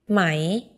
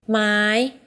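First: The pitch starts low and rises. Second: The pitch is high throughout. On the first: It means silk. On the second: It means wood.

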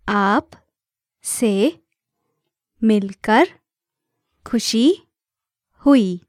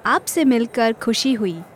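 First: It is said slowly. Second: It is said at normal speed.

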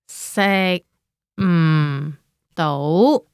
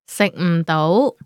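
First: It is said slowly. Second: It is said at normal speed.

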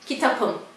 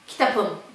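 First: The consonant before the ending is a p. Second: The same.

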